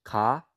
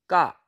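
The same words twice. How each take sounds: First: Said in the usual way. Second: "ka" with a tense, hard k; strong accent. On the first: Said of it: "here's the difference". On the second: Shown as a demonstration. Teacher showing the difference, "ka" with strong accent. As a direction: hit the k of "ka" tight, no puff of air. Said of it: "add strong accent to it".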